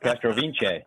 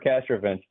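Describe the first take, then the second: First: The surname has a more ethnic, foreign-sounding pronunciation. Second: The surname has a plain, anglicized pronunciation. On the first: This claims a stronger link to the family's heritage. "we're a lot more ethnic than we used to be. All of a sudden he was Castrovince" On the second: This is how the family usually says the name. "I would say we're Castrovince"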